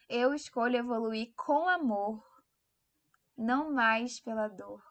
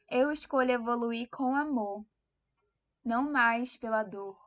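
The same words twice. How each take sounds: First: It is said forcefully, with strong conviction. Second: It is said calmly, without extra force.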